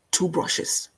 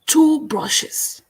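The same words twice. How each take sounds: First: "two brushes" breathed as a whisper. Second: "Two brushes" said higher and firmer, stress on "Two"; higher emphatic repeat. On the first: Host teasing viewers, whispering "two brushes". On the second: Host to viewers, repeating "Two brushes" higher and emphatic. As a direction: ring out "Two brushes" up high. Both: Acted. Livestream host's brush metaphor.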